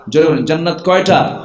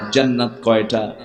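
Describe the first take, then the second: First: Raised, faster call; louder call to crowd. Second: Said in the usual way. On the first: Shown as a demonstration. Preacher urging the crowd to shout back, louder. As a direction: push the crowd to answer louder.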